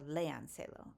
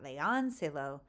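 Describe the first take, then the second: First: The stress falls on the 'e' sound. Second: The stress falls on a syllable other than 'e'. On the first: The speaker calls it right. "léanselo on the e" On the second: The speaker calls it wrong. "It's not léanselo"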